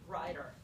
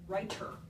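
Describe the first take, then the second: First: The middle consonant is a quick tongue flap. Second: The middle consonant is a sharp, puffed t. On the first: The speaker calls it right. "we turn both of those sounds into what we call a flap" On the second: The speaker calls it wrong. "with a t"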